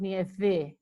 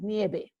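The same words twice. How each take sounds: First: The middle consonant is an English-style V sound. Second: The middle consonant is a B-like sound. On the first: The speaker calls it wrong. "the V is not pronounced nieve" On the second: The speaker calls it right. "It sounds like a B"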